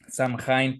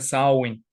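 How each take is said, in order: First: It is read out following its English-looking spelling. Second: It is said with its native Irish pronunciation. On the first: The speaker calls it wrong. "se escribe Samhain" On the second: The speaker calls it right. "pero se pronuncia Samhain"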